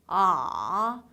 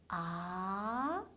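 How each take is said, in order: First: The pitch dips down, then bounces slightly up. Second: The pitch rises clearly from low to high. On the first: "내려가는 느낌만 좀 강하게 주신다고" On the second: "아래에서 위로 올라가는 게 확실한 음이에요"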